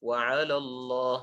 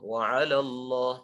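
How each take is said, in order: Both takes have the same delivery.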